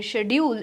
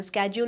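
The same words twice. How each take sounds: First: British shedjool; British pronunciation. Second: Schedule with a hard sk at the start; American skedjool; American pronunciation. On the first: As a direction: say schedule as shedjool. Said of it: "schedule is British pronunciation". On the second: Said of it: "American pronunciation". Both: Shown as a demonstration.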